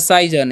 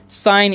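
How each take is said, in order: First: The g is sounded like a j. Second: The g is silent, said like sine. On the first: The speaker calls it wrong. "इसे सीजन नहीं पढ़ना है, या साइजन" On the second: The speaker calls it right. "साइन पढ़ते हैं"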